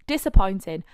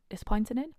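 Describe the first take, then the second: First: Disappointing. declared with a falling tune, louder; emphatic. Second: Disappointing? asked with a rising tune, softer; questioning. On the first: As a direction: land it firmly as the verdict. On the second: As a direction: echo it back as a question. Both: Shown as a demonstration.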